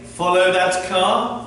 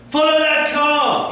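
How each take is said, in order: First: It is said in a flat, plain way. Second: It is said with strong, emphatic energy.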